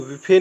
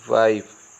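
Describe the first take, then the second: First: It has a plain 'i' and a final vowel. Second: It has an 'ai' sound and no final vowel. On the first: The speaker calls it wrong. "विफे नहीं पढ़ेंगे" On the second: The speaker calls it right. "इसका सही उच्चारण है वो होता है वाइफ"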